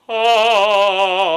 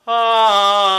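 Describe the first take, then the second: First: Loud, high ah with a raised palate; arched palate. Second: Loud, high ah with a flat palate. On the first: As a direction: open up the arch and sing ah. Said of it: "raise the palate and give it a little bit of arch". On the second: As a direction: sing ah without arching the palate. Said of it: "If I don't raise the palate". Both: Shown as a demonstration.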